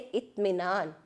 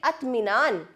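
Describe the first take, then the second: First: The first vowel sounds like 'i'. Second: The first vowel sounds like 'a'. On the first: The speaker calls it right. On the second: The speaker calls it wrong.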